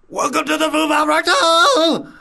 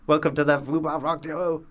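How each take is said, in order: First: It is said in a rock scream. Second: It is said in a normal speaking voice.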